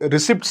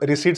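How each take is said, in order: First: The word is said with a p sound. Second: The word is said without a p sound. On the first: This is the older way of saying it. "రిసిప్ట్స్ బదులుగా" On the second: This is the way people say it nowadays. "ఈ మధ్య కాలంలో ఇదే పదాన్ని ... రిసీట్స్ అని పిలుస్తున్నారు"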